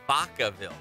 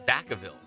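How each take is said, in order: First: The first part sounds like the Spanish word vaca. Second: The first part is said the usual English way. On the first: "like vaca, like a cow" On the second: "everyone says"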